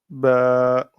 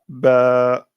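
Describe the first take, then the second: First: The vowel is long, held two beats. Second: The same.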